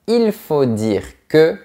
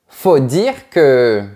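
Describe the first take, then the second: First: The word il is fully pronounced with its L. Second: The word il is left out entirely.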